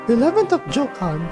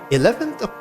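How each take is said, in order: First: It is read in a put-on character voice. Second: It is read in the speaker's normal voice.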